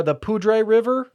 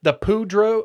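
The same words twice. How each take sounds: First: Slow "Poudre" ending on AY; corrected pronunciation. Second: "Poudre" ending on an OH sound; tentative pronunciation. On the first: Host corrects himself on the river's name, "Poudre" as slow POO-dray. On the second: Host attempts the river's name, tentative pronunciation with "Poudre" as POO-droh. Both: Shown as a demonstration. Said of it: "I think that's how it's pronounced".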